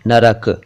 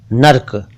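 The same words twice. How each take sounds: First: नरक said na-rak with a full r; three sounds in नरक, r not dropped; correct narak. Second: नर्क said as one syllable nark; clipped नर्क; wrong nark. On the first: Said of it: "र पूरा होना चाहिए". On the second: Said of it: "ये गलत है". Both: Shown as a demonstration.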